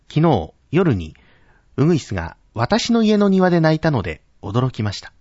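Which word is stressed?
私の家の庭. The phrase 私の家の庭 is said higher and stressed. "私の家の庭、ここに主眼を置いて読んだ場合"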